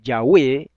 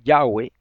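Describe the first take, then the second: First: The stress is on the last syllable. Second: The stress is on the first syllable. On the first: The speaker calls it right. "Con acento en la E... es una palabra aguda" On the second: The speaker calls it wrong. "no es Yahweh"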